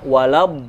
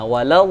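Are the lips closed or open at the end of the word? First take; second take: closed; open. First: The lips close, ending in a b sound. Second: The lips stay open at the word's end. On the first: The speaker calls it wrong. "Kalau rapat jadi ba" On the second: The speaker calls it right. "Jadi bibirnya nggak merapat kan?"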